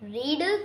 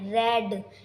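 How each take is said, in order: First: The vowel is a long ee sound. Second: The vowel is a short e sound. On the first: It is the present tense. "रीड की second form होती है रेड" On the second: It is the past tense. "Pronounce करते हैं रेड"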